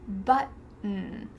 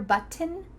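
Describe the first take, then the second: First: The T sound is stopped, not released. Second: The T sound is fully released. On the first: The speaker calls it right. "Nope, just button" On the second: The speaker calls it wrong. "Do you hear button?"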